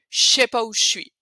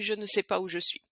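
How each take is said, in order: First: Syllables are dropped and run together. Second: Every syllable is said carefully in full. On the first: The speaker sounds more French. "si vous voulez être un peu plus euh, français" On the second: The speaker sounds like a tourist. "si vous voulez vraiment jouer au touriste, vous devez vraiment prononcer comme ça"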